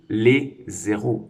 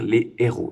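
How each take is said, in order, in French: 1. Un son z fait la liaison entre « les » et le nom. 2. Aucun son z ne fait la liaison entre « les » et le nom. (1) "On ne va pas dire" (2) "on va dire"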